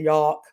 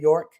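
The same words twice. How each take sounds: First: The R sound is dropped, New York style. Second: The R sound is clearly pronounced. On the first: The speaker calls it wrong. "I used to say my R's like a I like I was from New York" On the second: The speaker calls it right. "instead of"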